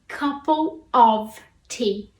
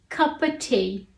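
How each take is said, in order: First: The word 'of' is said in full. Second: The word 'of' is reduced to 'uh'.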